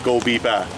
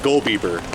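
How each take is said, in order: First: It is said in a Boston accent. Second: It is said in a plain, general accent.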